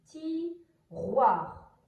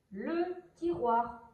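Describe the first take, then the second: First: "tiroir" very slow, split into ti and roir; word by syllables. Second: Said in the usual way. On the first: Shown as a demonstration. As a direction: pull "tiroir" apart into two long syllables. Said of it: "Donc, c'est". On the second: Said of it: "Donc, c'est tiroir".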